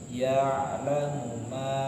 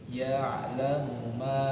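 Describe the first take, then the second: Both takes have the same delivery.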